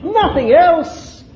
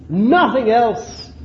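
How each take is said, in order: First: Emphatic. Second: Said in the usual way. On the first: Shown as a demonstration. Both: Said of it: "That's what it is".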